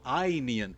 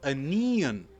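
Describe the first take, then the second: First: The first syllable is long. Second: The first syllable is short.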